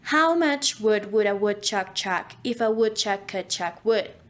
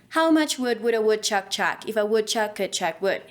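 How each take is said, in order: First: It is said slowly. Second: It is said fast.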